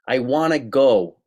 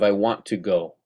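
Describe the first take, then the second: First: The words are run together and clipped. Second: Each word is said fully and distinctly. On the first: The speaker calls it wrong. "People saying things like" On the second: The speaker calls it right. "instead of"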